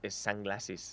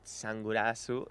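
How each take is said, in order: First: The word is said with English sounds. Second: The word is said with Japanese sounds.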